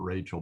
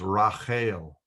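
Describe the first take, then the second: First: The name is said with English sounds. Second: The name is said with Hebrew sounds. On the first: The speaker calls it wrong. "her name was actually not Rachel" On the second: The speaker calls it right. "Raquel is the Hebrew pronunciation of Rachel"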